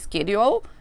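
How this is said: It is said with an American accent. "En American English, c'est schedule"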